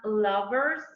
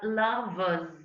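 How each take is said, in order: First: The r sound before the final s is pronounced. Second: The r sound before the final s is silent. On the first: The speaker calls it wrong. "that approximate sound shouldn't be there ... so it's not lovers" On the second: The speaker calls it right. "but lovers"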